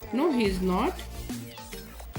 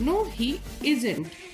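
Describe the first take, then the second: First: Is and not are said as separate words. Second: Is and not are joined into one word.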